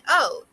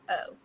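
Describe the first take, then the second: First: It is said in an excited tone. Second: It is said in a disappointed tone.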